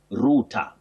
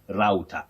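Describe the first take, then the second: First: It is said with a British accent. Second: It is said with an American accent. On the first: "in British English, you say router" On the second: "in American English, we have router"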